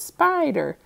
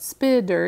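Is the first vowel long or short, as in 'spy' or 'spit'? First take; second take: long; short. First: The first vowel is long, like the 'i' in 'spy'. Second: The first vowel is short, like the 'i' in 'spit'. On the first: The speaker calls it right. "let me try it out with a long vowel sound. ... it's spider" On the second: The speaker calls it wrong. "It's not spider"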